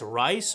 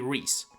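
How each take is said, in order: First: The name is said like 'rice'. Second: The name is said like 'reese'. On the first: The speaker calls it wrong. "some may pronounce incorrectly as Rice" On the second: The speaker calls it right. "but is actually Rhys"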